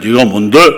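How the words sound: It is said politely and mildly.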